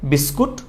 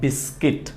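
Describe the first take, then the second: First: The second syllable has an 'oo' vowel. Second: The second syllable has an 'ee' vowel. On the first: The speaker calls it wrong. "বিস্কুট ভুল উচ্চারণ" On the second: The speaker calls it right. "এটাকে আমরা বলবো বিস্কিট"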